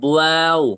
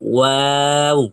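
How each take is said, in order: First: It starts with a b-like lip sound. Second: It starts with a soft rounded w sound. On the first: The speaker calls it wrong. "বয়ের মতো হলে তো হবে বুয়াও" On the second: The speaker calls it right. "প্রথমে মুখ গোল, মাঝখানে একটু ছড়িয়ে যাবে, তারপরে আবার মুখ গোল।"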